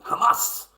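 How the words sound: It is said in an imitated foreign accent.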